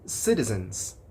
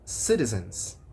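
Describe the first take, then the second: Both takes have the same delivery.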